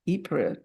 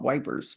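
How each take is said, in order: First: The name begins with a vowel sound. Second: The name sounds like the word wipers. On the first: This is the usual form of the place name. "which I would call Ypres" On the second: This is a nickname used in British speech. "British speak is called Wipers"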